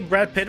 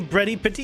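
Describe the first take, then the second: First: The words end in plain consonants. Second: The words end with added vowel sounds. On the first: "Here we don't say Brad Pitt" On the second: "we literally say Bretty Pitty"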